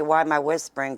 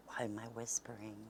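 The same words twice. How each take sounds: First: Loud, higher-pitched retelling; hollered repeat of an aside; calling out. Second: Soft, hushed aside; hushed whispering. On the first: Retold or imitated. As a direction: project the question across the house. Repeats whispered question aloud to Rox. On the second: Real, not acted. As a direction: drop to a near-whisper.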